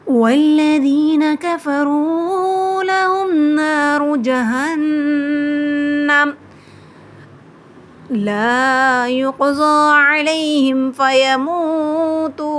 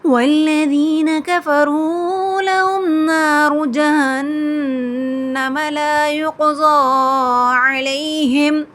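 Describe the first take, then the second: First: There is a breath pause after जहन्नम. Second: It runs on without a breath pause.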